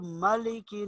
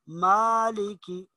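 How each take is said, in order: First: The long vowel is cut short. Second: The long vowel is drawn out. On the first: The speaker calls it wrong. "इसको मालिकी नहीं पढ़ेंगे" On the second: The speaker calls it right. "बल्कि मालिकी"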